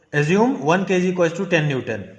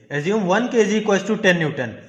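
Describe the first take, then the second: Both takes have the same delivery.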